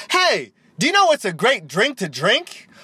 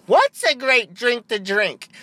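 First: High, swooping cheesy commercial voice; mock ad pitch. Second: High, drawn-out, hammed-up echo; mock ad stooge. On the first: Host opens a fake Red Bull commercial, hammed-up ad voice. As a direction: pitch the question like a hammed-up TV spot. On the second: Second voice in fake ad asks back, hammed-up and slow. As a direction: answer slowly in an exaggerated put-on commercial voice.

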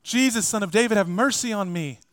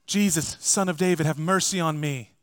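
First: Louder cry. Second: First cry. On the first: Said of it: "he just says it even louder". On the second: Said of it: "cries out". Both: Retold or imitated.

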